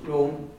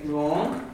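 First: The vowel is a closed O sound. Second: The vowel is an open O sound. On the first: This is how it is said in Ulster. "We have a closed room" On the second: This is how it is said in Scottish Gaelic. "They say wrong, they have an open one"

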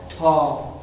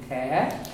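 First: The vowel is far back, Munster style. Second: The vowel is even higher, Gweedore style.

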